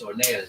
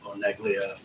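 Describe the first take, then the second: First: The name is pronounced with Italian sounds. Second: The name is pronounced with American English sounds. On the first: This is the proper original pronunciation. "if you want to say it properly, it's Oneglia. It's an Italian name" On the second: This is the casual everyday pronunciation. "but I go to Oneglia, whatever"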